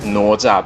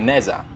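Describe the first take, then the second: First: The first syllable sounds like 'now'. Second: The first syllable sounds like 'neh'. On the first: "the real pronunciation is Naoza" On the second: "but you can call it Neza"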